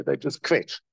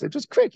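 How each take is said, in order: First: Said in the usual way. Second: Much higher, a mock whine; mock whiny kvetch. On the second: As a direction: whine the word quetch up high like a complainer. Mocking people who just kvetch.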